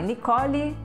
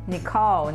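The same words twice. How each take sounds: First: A vowel sound is heard after the final l. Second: The word ends on the l with no vowel.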